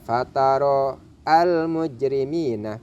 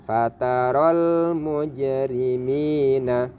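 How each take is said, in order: First: The 'al' is pronounced with its own separate 'a'. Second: The 'al' is merged into the preceding word. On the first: The speaker calls it wrong. "tidak dibaca" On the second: The speaker calls it right. "Bagaimana cara membacanya?"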